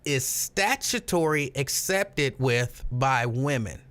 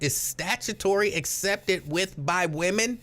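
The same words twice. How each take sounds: First: It is read slowly. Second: It is read at normal speed.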